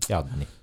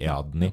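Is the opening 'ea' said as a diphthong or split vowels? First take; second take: diphthong; split vowels. First: The opening vowels glide together as one diphthong. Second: The opening vowels are split into separate syllables. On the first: The speaker calls it right. "altså som diftong" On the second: The speaker calls it wrong.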